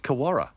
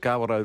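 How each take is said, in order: First: The name is said as 'Kawara'. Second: The name is said as 'Kawerau'. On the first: The speaker calls it wrong. "the other one is Kawara" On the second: The speaker calls it right. "is the Kawerau River"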